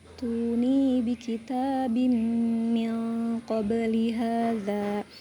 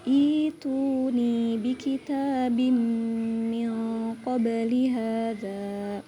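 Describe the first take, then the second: First: It joins the previous word with no opening vowel. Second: It starts fresh with an opening 'i' vowel. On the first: The reading continues from the previous words. "Itu jika diwasol atau diteruskan" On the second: The reading starts at this word. "begitu permulaannya"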